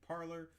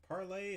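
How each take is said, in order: First: The word ends with an 'er' vowel sound. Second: The word ends with an 'ay' vowel sound. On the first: This is the pronunciation people later adopted. "they began to start using the word to parlor" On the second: This is the original official pronunciation. "It's officially started out as parlay"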